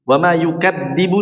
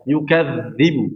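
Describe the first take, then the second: First: The middle consonant is a stopped d sound. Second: The middle consonant is a flowing dh sound. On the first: The speaker calls it wrong. "ini salah" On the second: The speaker calls it right. "Yukadzibu harus keluar"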